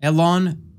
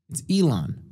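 First: Elon with EH as in bed; wrong Elon. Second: Elon with EE as in see; correct Elon. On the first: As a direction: say Elon as EH-lon. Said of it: "is it Elon Musk or Elon Musk?". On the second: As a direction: say Elon as EE-lon. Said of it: "So I had it wrong". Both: Shown as a demonstration.

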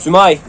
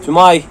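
No difference in how they are said.

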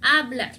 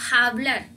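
First: Hablar starting cleanly on a, "ablar"; silent H. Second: Hablar with a raspy kh sound at the front; sounded H, mistaken. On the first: Teacher corrects the mistake, hablar with silent H. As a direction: drop the h of hablar completely. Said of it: "no tiene sonido". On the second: Teacher mimics foreigners' mistake, hablar with H voiced out. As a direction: start hablar on an audible h, like "jablar". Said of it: "no, hablar no". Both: Shown as a demonstration.

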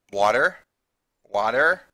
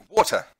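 First: "water" with a hard American R; American pronunciation. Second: "water" with no hard R; New Zealand pronunciation. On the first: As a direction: curl a full R onto the end of "water". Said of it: "I pronounce things in an American way". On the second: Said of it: "So we say". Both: Shown as a demonstration.

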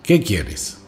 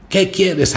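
First: Calmer grumble. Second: High, sharp angry yell at the intruder; the grumpy old man yells at the boy; grumpy shout. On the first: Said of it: "ya un poco más calmado". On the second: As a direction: bark the question at the boy. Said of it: "gritó". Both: Acted.

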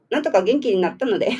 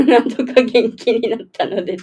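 First: Said in the usual way. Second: 笑いまじりに言い直す; 笑いをこぼしながら繰り返す; 笑いながら. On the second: Real, not acted. 言い直しながら笑う. (思わず笑いつつ言う)

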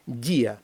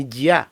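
First: «Дія» with stressed і, falling separate я; split diphthong. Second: «дя» as one loud syllable; unsplit diphthong. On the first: Teacher shows how it should sound, vowels split. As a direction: stress the і in «Дія», let it fall. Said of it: "як воно повинно звучати". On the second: Teacher shows the wrong reading, diphthong merged. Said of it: "якби ми не розбили дифтонга". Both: Shown as a demonstration.

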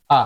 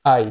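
First: আ clipped to a short "a"; short fast vowel. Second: আই as a full gliding "ai"; full diphthong. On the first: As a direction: shorten আই to আ, quickly. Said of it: "যদি দ্রুত উচ্চারণ করতে যান". (দ্রুত সংক্ষিপ্ত আ) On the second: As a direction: say আই with the whole glide. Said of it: "উচ্চারণ করতে হবে কি". (আই পুরো উচ্চারণ) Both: Shown as a demonstration.

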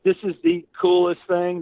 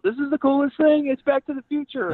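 First: Higher, louder delighted gush; thrilled mom. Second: Put-on high, loud, thrilled kid voice; kid freaking out. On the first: Retold or imitated. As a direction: rave like a mom in a famous movie car. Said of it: "They were freaking out". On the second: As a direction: gush like a boy who just saw his dream car. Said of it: "he's, like, freaking out".

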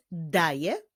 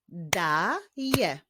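First: Said in the usual way. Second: "Daje" as long da, then je; "Daje" syllable by syllable; split into syllables. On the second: Shown as a demonstration. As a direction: break "Daje" into two beats. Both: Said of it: "Podzielmy na sylaby i wyklaszczmy".

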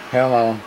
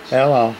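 Both takes have the same delivery.

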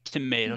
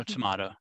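First: Tomato with a long "ay" in the middle; pronounced "to-may-to". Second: Tomato with an open "ah" in the middle; pronounced "to-mah-to". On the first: Colleague echoing a listener's quip, Tomato pronounced "to-may-to". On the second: Colleague echoing a listener's quip, tomato pronounced "to-mah-to". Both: Shown as a demonstration. Echoes the two pronunciations.

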